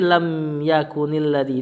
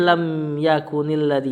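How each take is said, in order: First: The n sound of yakun is kept. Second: The same.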